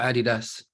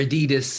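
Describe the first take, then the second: First: It is said in a non-American way. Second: It is said the American way.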